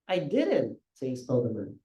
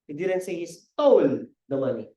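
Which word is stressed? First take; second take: didn't; stole. First: The word didn't carries the stress. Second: The word stole carries the stress. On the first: The speaker denies having said it. "Hindi ko sinabi" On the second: The money was borrowed, not stolen. "Hindi naman yan, ninakaw eh. Hiniram lang"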